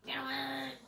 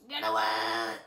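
First: Said in the usual way. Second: Much lower, loud menacing growl; a big bad bird warning you off; mock monster bird threat; deep bird voice. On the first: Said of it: "And he's like". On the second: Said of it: "He's like".

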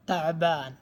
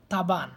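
First: "তাবান" as ta'-baan, with a throaty ayn after ta; correct Arabic pronunciation. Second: "তাবান" as simple ta-ban, without the Arabic ayn; foreigners' mispronunciation. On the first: Shown as a demonstration. Teacher corrects foreigners' version, pronounced in proper Arabic. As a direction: say "তাবান" with the ayn and a long final aa. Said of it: "আসলে শুদ্ধ উচ্চারণ হবে". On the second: Retold or imitated. Teacher quotes how foreigners say tired, mispronounced. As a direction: say "তাবান" smoothly, skipping the throat sound. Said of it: "এখানে আজনবীরা তাবান".

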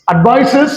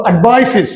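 First: অ্যাডভাইসেস ending in "-ses", rising; old "-es" ending. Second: অ্যাডভাইসেস ending in "-siz", falling; new "-iz" ending. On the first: Teacher recalling the earlier way, অ্যাডভাইসেস with "-ses". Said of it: "আগে বলেছি আমরা". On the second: Teacher showing the corrected way, অ্যাডভাইসেস with "-siz". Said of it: "এখন আমরা বলবো". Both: Shown as a demonstration.

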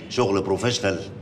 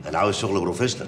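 First: Slow, drawn-out "شغل بروفيشنال"; emphatic repeat. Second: Said in the usual way. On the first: Acted. Editor making sure the intern understands, "شغل بروفيشنال" said slowly.

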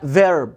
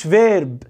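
First: "فيرب" with an r-coloured vowel; correct English R. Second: "فيرب" with an "ay" before the R; mispronounced vowel. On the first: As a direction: let the English R take over the vowel in "فيرب". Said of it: "اسمها فيرب". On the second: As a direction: say "فيرب" as "veyrb", the common mistake. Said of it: "ما اسمهاش فيرب". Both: Shown as a demonstration.

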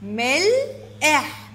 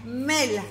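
First: ملح slowly split as مل، إح; syllable by syllable. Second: Said in the usual way. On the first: Shown as a demonstration. Teacher giving the breakdown of ملح, syllable by syllable. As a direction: stretch and separate both parts of ملح. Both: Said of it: "تقطيعها".

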